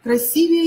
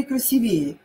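First: Красивее with stressed И; Красивее, stressed on the second syllable. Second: Красивее with stressed «ве»; красивее, stressed on the third syllable. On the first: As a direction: hit «си» in Красивее. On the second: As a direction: hit the Е after В in красивее. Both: Shown as a demonstration. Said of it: "И или Е".

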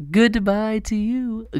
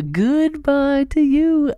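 First: High, slow mock farewell; sing-song goodbye. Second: Higher still, loud and slow; a bigger, louder taunting goodbye; sing-song goodbye. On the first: Waving off the bear market, high slow sing-song goodbye. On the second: Pretend. Taunting the bear market, higher and louder sing-song goodbye.

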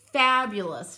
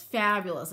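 First: Fabulous said much louder, falling. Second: Said in the usual way. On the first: Real, not acted. To viewers admiring the Paris stencil, a loud fabulous. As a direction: belt out fabulous with a falling tune.

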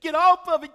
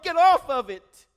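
First: High, loud desperate yell; Jesus screaming. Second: High, loud desperate yell, strained; Jesus screaming. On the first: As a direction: scream a warning at the train. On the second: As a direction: scream it after the passing train. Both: Retold or imitated. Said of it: "flashing and screaming and waving his arms".

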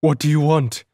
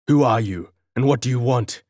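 First: High, loud frightened squeak; panicked falsetto demand; frightened guard facing the figure, high terrified squeak. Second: Loud, bold demand to a stranger; guard boldly challenging the cloaked figure, loud; bold challenge. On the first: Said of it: "he squeaked in a terrified falsetto". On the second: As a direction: stand your ground and call out boldly. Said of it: "he queried boldly". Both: Acted.

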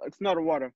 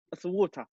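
First: "water" said the American way; American accent. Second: "water" said the British way; English accent. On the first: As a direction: mimic an American "water" to correct it. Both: Shown as a demonstration. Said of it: "in English".

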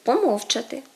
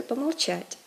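First: Помовчати punched on -МОВ-; Ukrainian stress. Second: Помовчать stressed on -ЧАТЬ; Russian end stress. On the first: Teacher gives Ukrainian form, помовчати stressed on МОВ. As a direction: hit the MOV of помовчати. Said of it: "відмінність акцентуації". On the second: Teacher gives Russian form, помовчать stressed on the ending. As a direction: land on the last syllable of помовчать. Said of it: "відповідно до російської". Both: Shown as a demonstration.

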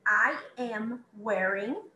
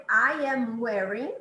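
First: I am wearing drawn out very slowly; very slow model. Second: Slow model phrase. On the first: Teacher repeats I am wearing very slowly for students. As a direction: stretch every word. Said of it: "se eu for dizer". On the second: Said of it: "Eu, por exemplo". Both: Shown as a demonstration.

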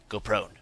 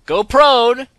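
First: Said in the usual way. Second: High, loud yell of go prone; urgent yell to drop flat; shouted command. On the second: Real, not acted. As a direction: bark the order out. Repeats instruction, now shouted.

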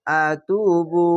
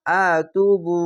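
First: আতুবু stretched slowly, each vowel held; slow, long আতুবু; drawn-out recitation. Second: Said in the usual way. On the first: Shown as a demonstration. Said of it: "এক আলিফ টেনে পড়বেন". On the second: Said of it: "আতু বা পেশ বু".

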